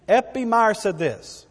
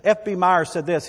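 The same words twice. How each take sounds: First: "F B Meyer said this" slower and higher, each word weighted; emphatic re-reading. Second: Said in the usual way. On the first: Shown as a demonstration. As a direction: announce "F B Meyer said this" slowly, with emphasis. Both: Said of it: "Let me read it again".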